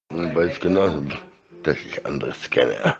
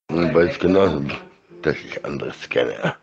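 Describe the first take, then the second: No difference in how they are said.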